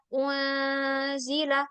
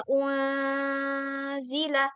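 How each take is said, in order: First: The n sound is blurred into a nasal sound. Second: The n sound is blurred into a nasal sound.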